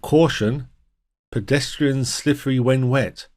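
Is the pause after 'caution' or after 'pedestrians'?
after caution. The pause comes after 'caution'. The pedestrians themselves are slippery. The speaker calls it wrong. "a warning that the pedestrians are slippery when wet"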